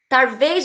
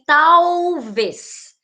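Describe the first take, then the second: First: The word is said with an R sound. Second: The word is said with an L sound. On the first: This is the popular, non-standard pronunciation. "nas falas populares a troca pelo R" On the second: This is the standard pronunciation. "Talvez e solto com L"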